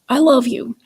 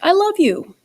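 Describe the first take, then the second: First: It is said in a frustrated, guilt-tripping tone. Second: It is said in an excited tone. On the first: "in a way that was frustrated, maybe in a way that kind of uh, was guilt inducing" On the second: "in a way that was really excited"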